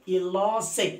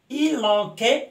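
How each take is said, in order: First: The middle consonant is a soft s sound. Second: The middle consonant is a hard k sound. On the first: The speaker calls it right. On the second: The speaker calls it wrong.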